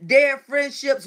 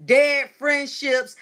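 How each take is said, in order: First: Dead friendships said slowly again, falling; hammering the lesson home, slow and falling; emphatic echo. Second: Dead friendships drawn out slowly; preaching the point, slow and weighty; slow emphatic repeat. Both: Shown as a demonstration. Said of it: "give life to dead situations".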